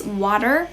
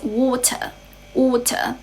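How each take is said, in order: First: American "water" ending in a clear r; American accent. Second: British "water", crisp t and no final r; British accent. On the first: Teacher contrasting accents for learners, American accent. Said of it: "in American English". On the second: Teacher contrasting accents for learners, British accent. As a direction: say "water" as British "waw-tuh". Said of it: "in British English". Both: Shown as a demonstration.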